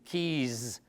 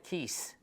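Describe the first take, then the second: First: The word ends with a z sound. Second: The word ends with an s sound. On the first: The speaker calls it right. "You say key, keys ... so you add z there" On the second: The speaker calls it wrong. "notice you don't say keys"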